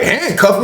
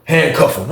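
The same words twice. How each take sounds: First: High-pitched, startled question; taken aback, voice jumping up; incredulous echo. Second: Slow, even command in his usual pitch; unbothered lieutenant's instruction; matter-of-fact order. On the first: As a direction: throw the order back in disbelief. His startled echo of the order. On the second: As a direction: give the order calmly and slowly. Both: Retold or imitated.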